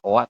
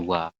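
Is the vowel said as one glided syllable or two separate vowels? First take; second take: two vowels; one syllable. First: Two separate vowels, o then a. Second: One syllable with a w glide into a. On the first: The speaker calls it wrong. "bukan oa" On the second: The speaker calls it right. "tapi wa"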